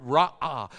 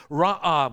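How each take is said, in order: First: Ra'ah said as a long open rah-ah, falling; Hebrew word ra'ah. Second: Ra'ah repeated much louder, a long open rah-ah; louder Hebrew ra'ah. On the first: Pastor teaching the congregation the Hebrew word ra'ah, pronounced rah-ah. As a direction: say ra'ah slowly with a long ah, letting it drop. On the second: Pastor repeating the Hebrew word ra'ah for emphasis, loud and falling. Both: Shown as a demonstration. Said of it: "is the Hebrew word".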